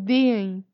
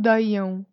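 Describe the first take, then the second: First: The final vowels follow without a glide between. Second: A glide sound comes before the final vowel. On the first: The speaker calls it right. "é deem" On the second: The speaker calls it wrong. "não digam deiam"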